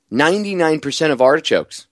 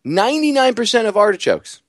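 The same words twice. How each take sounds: First: Said in the usual way. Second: Ninety-nine said much higher, stressed; emphatic repeat. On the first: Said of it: "repeated louder". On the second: Shown as a demonstration. Host repeats the statistic to his audience, emphatic. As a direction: hammer the figure home. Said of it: "repeated higher".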